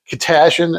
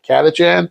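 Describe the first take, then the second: First: The middle consonant is a soft 'sh' sound. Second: The middle consonant is a hard 'ch' sound. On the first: This is the old pronunciation the players assumed. The speaker calls it wrong. "We thought it was pronounced uh, uh, Katashin" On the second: This is how people actually pronounce it. The speaker calls it right. "and not Katachan"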